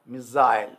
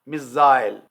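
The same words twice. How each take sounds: First: It is said in a British accent. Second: It is said in a British accent.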